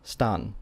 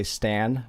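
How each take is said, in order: First: Stan as "stahn", with an open ah; Japanese pronunciation. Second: Stan with the English short a, as in "cat"; English pronunciation. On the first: Teacher sounding out the finished name, Japanese pronunciation. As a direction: say stan with a Japanese ah in place of the English a. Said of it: "And now you have". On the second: Teacher saying the name as in English, English pronunciation. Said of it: "in English you would say". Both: Shown as a demonstration.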